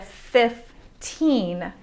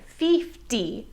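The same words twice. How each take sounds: First: Put-on slow "fifteen", fif-TEEN; clear final N. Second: "fifty" as feef-DEE; "fifty" with a long ee in place of short i; learner's mispronunciation. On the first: Shown as a demonstration. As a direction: draw out the second syllable of "fifteen". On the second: Retold or imitated. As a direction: imitate a learner saying "fifty" with ee vowels. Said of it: "learners tend to say fifty instead".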